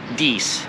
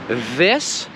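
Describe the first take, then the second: First: It has a long 'ee' vowel. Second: It has a short 'i' vowel. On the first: The speaker calls it wrong. "pronouncing I like E" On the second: The speaker calls it right. "say this instead of dies"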